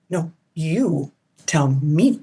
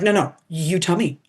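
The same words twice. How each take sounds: First: Drawn-out coy reply. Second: Said in the usual way. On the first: Retold or imitated. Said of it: "I'm like". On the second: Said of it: "And they're like".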